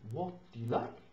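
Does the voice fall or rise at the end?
rise. The voice rises at the end. The speaker calls it wrong. "Not what do you like?"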